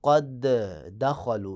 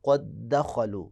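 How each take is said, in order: First: The two d sounds are pronounced separately. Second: The two d sounds merge into one doubled d. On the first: The speaker calls it wrong. "यानी आपने ये नहीं करना ... ये गलत हो जाएगा" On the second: The speaker calls it right. "आपने इदगाम करना है"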